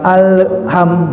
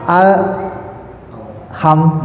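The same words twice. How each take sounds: First: The L is released with a small bounce. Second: The L is held and flows into the H. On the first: The speaker calls it wrong. "jadi bukan al ham" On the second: The speaker calls it right. "nah gitu"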